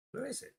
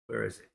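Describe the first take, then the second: First: High, soft puzzled "Where is it?" with a rising end; puzzled search. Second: Said in the usual way. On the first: Real, not acted. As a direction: ask "Where is it?" up high and quietly, baffled. Searching for lost stock.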